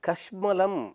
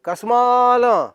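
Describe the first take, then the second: First: The middle vowel is short. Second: The middle vowel is drawn out long. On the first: It is the original word from the scripture. "கஷ்மலம் அப்படின்னு ஒரு வார்த்தை அங்க சமஸ்கிருதத்துல இருக்கு" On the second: It is used today as a rude insult. "தீர்க்கமா அப்படியே நீட்டாலாம் போய் கஸ்மாலம் அப்படிங்கிறோமே"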